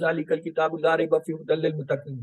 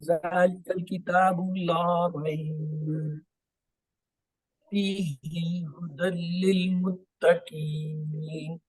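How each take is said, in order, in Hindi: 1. यह बिना किसी रुकावट के आगे चलता है। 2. यह la rayb के बाद रुकता है, फिर आगे चलता है। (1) "आप इसे तसल्सल में नहीं पढ़ सकते" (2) "मैं जो है ला रैब पे रुका और फीही को मैंने हुदल से डाला"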